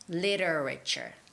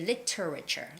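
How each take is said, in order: First: The middle T is a soft, flapped sound. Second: The middle T is a crisp, hard T. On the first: "if you make the softer T sound" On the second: "you can make the hard T sound"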